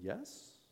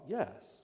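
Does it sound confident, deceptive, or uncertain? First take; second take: uncertain; deceptive. First: It sounds hesitant and unsure. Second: It sounds sly and deceptive.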